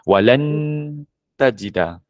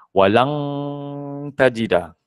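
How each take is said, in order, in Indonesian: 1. Bunyi n dibunyikan penuh dengan lidah menyentuh. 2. Bunyi n diubah menjadi bunyi ng yang jelas. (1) "tak boleh sentuh langit Ustaz" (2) "Ada N G tu Ustaz"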